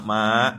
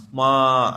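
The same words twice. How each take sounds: First: Said in the usual way. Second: "Ma" drawn out plaintively; plaintive call to mother. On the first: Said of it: "nggak gitu ngomongnya". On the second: Shown as a demonstration. Boy phoning his mother for pity, "Ma" drawn out plaintively. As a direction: stretch "Ma" into a pleading call. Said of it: "nggak, nggak, nggak gitu ngomongnya".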